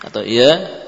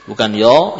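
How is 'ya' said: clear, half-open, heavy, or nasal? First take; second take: half-open; heavy. First: The mouth is only half open. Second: A thick, darkened vowel close to 'yo'. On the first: "tidak memberikan kesempurnaan harakat"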